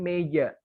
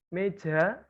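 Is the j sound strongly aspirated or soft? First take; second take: soft; aspirated. First: The j is touched lightly with little air. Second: The j comes with a strong burst of air. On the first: The speaker calls it right. "Tapi meja" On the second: The speaker calls it wrong. "ini kita biasa orang Jawa"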